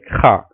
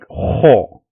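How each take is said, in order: First: The letter is said light, without a full mouth. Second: The letter is said heavy, with a full mouth. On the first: The speaker calls it wrong. "So you don't say like ha" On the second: The speaker calls it right. "you pronounce those letters with with full mouth, like ho"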